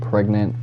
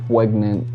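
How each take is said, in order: First: It is said in a plain, normal voice. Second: It is said in a cartoonish, Elmer Fudd-like voice. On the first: "instead of saying pregnant" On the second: "Sometimes I Elmer Fudd certain phrases to be funny"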